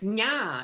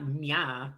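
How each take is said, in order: First: The word is said with strong, lively emphasis. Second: The word is said flatly, without emphasis. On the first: The speaker calls it right. "you gotta put the emphasis in" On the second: The speaker calls it wrong. "It's not nya"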